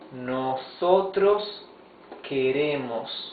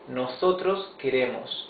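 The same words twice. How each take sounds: First: It is spoken slowly and carefully. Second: It is spoken at normal speed.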